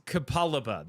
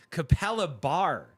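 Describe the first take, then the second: First: "Kapalaba" ending in an open ah; no final R. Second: "Kapalabar" ending in a hard R, louder; added final R. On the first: Streamer settling on a suburb's name, Kapalaba without R. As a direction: say "Kapalaba" with no R at the end. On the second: Streamer testing a suburb's name, R added to Kapalabar. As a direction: say "Kapalabar" with an R stuck on the end. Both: Shown as a demonstration. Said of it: "There's no R at the end".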